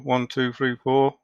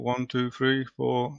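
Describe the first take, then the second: First: The voice sounds a bit clearer. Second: The voice sounds muddier and less clear. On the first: The speaker calls it right. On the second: The speaker calls it wrong.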